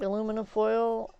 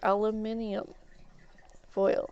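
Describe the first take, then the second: First: It is said with four syllables, American style. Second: It is said with five syllables, British style.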